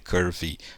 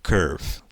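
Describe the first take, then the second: First: The word ends with an added vowel sound. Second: The word ends without any added vowel sound. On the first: The speaker calls it wrong. "não fale curvy" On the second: The speaker calls it right. "esse Ezinho final também não é pronunciado"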